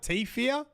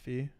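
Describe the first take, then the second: First: A T sound comes before 'fear'. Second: It starts straight with 'fear', no T. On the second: "Silent T"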